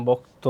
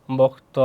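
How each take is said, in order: First: বক্ত said as "bok-to" with a closed o ending; teacher's model of বক্ত ending in "to"; rounded final vowel. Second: বক্ত split as "bok-taw" with an open last vowel; spelling-style reading of বক্ত, open final vowel; written-form reading. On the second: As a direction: say বক্ত leaving the ending open. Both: Shown as a demonstration. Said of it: "শেষে উকার হয়েছে কিন্তু".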